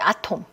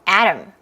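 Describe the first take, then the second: First: It is said with a Korean pronunciation. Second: It is said with an English pronunciation.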